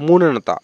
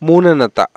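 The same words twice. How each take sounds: The two takes are said the same way.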